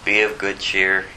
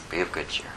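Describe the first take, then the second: First: Lightly voiced calm Jesus, "Be of good cheer" said evenly; steady the scared men, gently; reassuring Jesus. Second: Much softer, "Be of good cheer" almost breathed; soft echo. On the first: Jesus calling to the frightened disciples, calm and reassuring. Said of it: "So Jesus has to say". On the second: Acted. Preacher repeating Jesus's words to listeners, softly. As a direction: let the phrase settle, hushed. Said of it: "repeated softly to the congregation".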